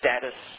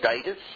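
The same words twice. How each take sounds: First: It has an American pronunciation. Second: It has an Australian pronunciation. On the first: "all American pronunciations" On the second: "We used to say status"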